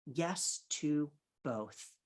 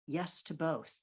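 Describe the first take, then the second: First: "Yes to both" at half speed; deliberate, drawn-out "Yes to both"; slow, emphatic. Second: Said in the usual way. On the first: Real, not acted. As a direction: space out each word of "Yes to both". Repeats it slowly for emphasis.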